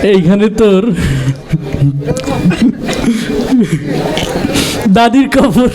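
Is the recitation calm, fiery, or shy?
shy. It is recited timidly and hesitantly. "আবৃত্তি করতে খুব লজ্জা পাচ্ছিল"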